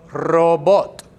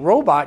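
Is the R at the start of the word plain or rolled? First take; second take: rolled; plain. First: The R at the start is rolled. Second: The R at the start is plain, not rolled. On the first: The speaker calls it right. "you say robot. ... a rolling of the R" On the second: The speaker calls it wrong. "instead of saying robot"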